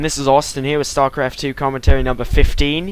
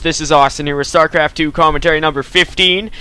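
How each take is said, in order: First: It is spoken in a put-on Australian accent. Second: It is spoken in the speaker's normal accent. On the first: "I hope you appreciate my practicing my Australian accent" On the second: "in his regular voice this time"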